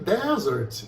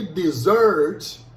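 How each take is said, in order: First: The stress is on the first syllable. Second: The stress is on the second syllable. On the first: A dry, sandy region. "a sílaba tônica é a primeira" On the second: To abandon someone. "agora a tônica está na segunda sílaba"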